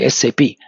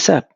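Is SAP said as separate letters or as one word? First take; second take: letters; one word. First: It is said as three separate letters. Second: It is said as a single word. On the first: The speaker calls it right. "Just like I B M, like that S A P" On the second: The speaker calls it wrong. "don't say S A P"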